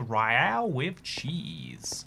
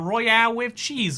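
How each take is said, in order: First: It is spoken slowly in an American accent. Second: It is spoken in a British accent. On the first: "I got a second accent from America. You speak a little bit slower" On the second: "if you're British, you're not like, oh yeah, we call it a royale. All right, lads"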